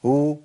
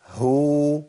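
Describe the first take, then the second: First: "هو" as mostly oo, the ه barely there; hidden haa with damma. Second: "هو" with a distinct ه, then long oo; clear haa with damma. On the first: Teacher shows unacceptable reading, haa hidden. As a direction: drown the h of "هو" in its vowel. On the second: Teacher corrects the mistake, haa clearly sounded. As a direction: sound the h firmly before the oo of "هو". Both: Shown as a demonstration. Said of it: "ما ينفعش الكلام ده".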